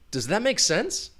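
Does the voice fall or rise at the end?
rise. The pitch rises at the end. The speaker genuinely does not know the answer. "you're going to have that rising intonation"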